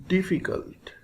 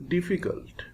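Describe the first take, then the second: The two takes are said the same way.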